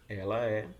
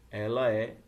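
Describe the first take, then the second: The two takes are said the same way.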